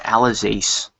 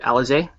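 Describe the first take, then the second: First: The name is said with a non-French pronunciation. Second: The name is said with a French pronunciation. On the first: The speaker calls it wrong. "I think they were calling her Alizace" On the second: The speaker calls it right. "I'm pretty sure it's a French pronunciation here"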